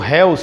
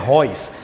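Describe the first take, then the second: First: The vowels are read separately as spelled. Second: The vowels merge into an 'oy' sound. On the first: "é escrito Reus" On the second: "mas a pronúncia é Reus"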